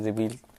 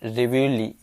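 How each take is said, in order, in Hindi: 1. यह दो अक्षरों में बोला जाता है, reveal की तरह। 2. यह तीन अक्षरों में बोला जाता है, अंत में -lee के साथ। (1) "आप लोग याद रखिए रिवील टाइप से" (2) "इसको बोलते हैं रिव्यूली"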